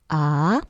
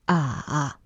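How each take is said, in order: First: The pitch rises toward the end. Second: The pitch dips down then comes up. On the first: "The second tone goes up a little bit" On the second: "the third tone is the dip"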